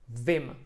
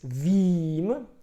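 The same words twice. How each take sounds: First: The vowel is short and quick. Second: The vowel is long and drawn out. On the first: The speaker calls it right. "you make it shorter" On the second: The speaker calls it wrong. "you wouldn't say it like this"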